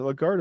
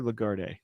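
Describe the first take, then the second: First: Lagarde ending on a hard D; silent final E. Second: Lagarde with an "ay" on the end; sounded final E. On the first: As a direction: say Lagarde as "luh-GARD", no vowel after the D. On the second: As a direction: say Lagarde as "luh-gar-DAY". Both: Shown as a demonstration. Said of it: "is it Lagarde or Lagarde?".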